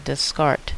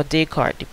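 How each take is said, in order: First: Descartes with the S sounded, des-KART; alternative pronunciation. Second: Descartes as day-KART, silent first S; alternative pronunciation. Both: Shown as a demonstration. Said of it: "how it is they pronounce his name".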